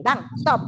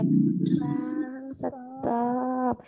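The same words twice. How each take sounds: First: Said in the usual way. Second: Overly gentle. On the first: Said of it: "kita kan begini". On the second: Shown as a demonstration. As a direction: stretch each word so slowly the car is already gone. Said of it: "Kalau dia".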